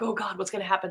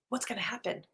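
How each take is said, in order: First: It sounds full of dread. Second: It sounds excited and positive.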